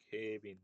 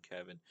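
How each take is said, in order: First: "Kevin" said as "Kebin", a b sound in place of v; "Kevin" in a light Japanese katakana style. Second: "Kevin" with a full English k and v; "Kevin" with a clean English stress on the first part. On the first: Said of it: "they say your name, like". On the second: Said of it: "say it with the exact intonation". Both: Retold or imitated.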